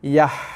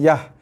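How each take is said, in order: First: The h is a tight, raspy throat h. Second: The h is a plain, soft breathy h. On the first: The speaker calls it right. "Tapi yah. Ha, bunyi kepedasan kat situ kan" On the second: The speaker calls it wrong. "kita dah tukar ha pedas kepada ha bulat ni. Jaga, bukan yah"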